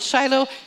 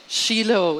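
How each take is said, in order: First: The name is pronounced the English way. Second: The name is pronounced the Hebrew way. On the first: "some of us call it Shiloh" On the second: "It's the Hebrew pronunciation"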